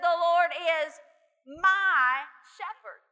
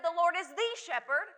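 First: "my" stretched slow and louder; "my shepherd" given full weight; stress on MY. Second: "the" leaned on; "The Lord is the shepherd" with weight on "the"; stress on the. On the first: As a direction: lean hard on "my", drawn out. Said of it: "but he said". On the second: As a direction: lean into "the". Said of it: "It's not even that he said". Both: Shown as a demonstration.

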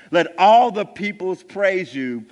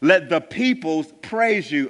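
First: "all" pushed louder with a falling tune; stress on all. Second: Said in the usual way. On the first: Shown as a demonstration. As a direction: lean hard on "all" for emphasis. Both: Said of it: "redundancy in poetry, it is for emphasis".

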